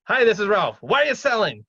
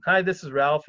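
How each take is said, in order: First: Loud, high-pitched blunt phone opener; tactless blurting. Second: Tactful opener. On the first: Investor cold-calling an owner with no tact, blunt and loud. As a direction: pounce on the owner with zero tact. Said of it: "You can't just, like". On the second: Investor phoning an owner about the ad, tactful and relaxed. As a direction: introduce yourself casually, no pressure. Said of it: "kinda be kind of a little bit tactful". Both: Acted.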